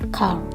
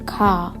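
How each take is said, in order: First: American accent, short a, clear final r. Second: British accent, long a, no final r. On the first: "versi American English diucapkan car" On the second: "diucapkan dengan British English itu car"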